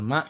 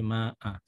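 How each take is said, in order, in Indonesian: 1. Kata itu berakhir terpotong, tanpa vokal tambahan. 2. Kata itu berakhir dengan vokal akhir yang dipanjangkan. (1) "Bukan ma gitu aja" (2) "tapi ma a"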